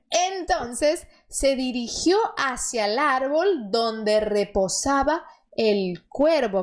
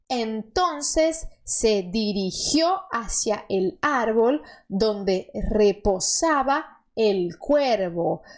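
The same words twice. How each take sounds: First: The sentence is read at normal speed. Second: The sentence is read more slowly.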